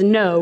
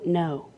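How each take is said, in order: First: The word is said very loudly. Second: The word is said very quietly.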